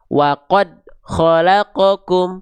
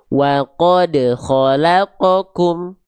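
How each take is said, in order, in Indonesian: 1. Huruf d di qad tidak dipantulkan. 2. Huruf d di qad dipantulkan tanpa ditahan. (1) "dia tidak dipantul, tidak dipantulkan" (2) "dipantulkan tapi tidak tertahan pantulannya"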